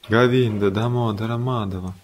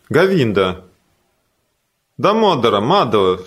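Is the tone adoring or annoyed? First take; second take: adoring; annoyed. First: It is said in a loving, adoring tone. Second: It is said in an irritated, annoyed tone. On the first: The speaker is delighted to see the beloved. "Наверное, это мой Кришна" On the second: The speaker wants the other to get out of the way. "И тогда с другим выражением же"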